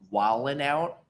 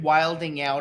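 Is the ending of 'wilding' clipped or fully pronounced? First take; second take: clipped; full. First: The word ends in a clipped 'in' sound. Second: The word ends in a full 'ing' sound. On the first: This is the usual way the phrase is said. The speaker calls it right. "the proper enunciation was" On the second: The speaker is deliberately saying it oddly to tease. The speaker calls it wrong. "I intentionally mispronounced it"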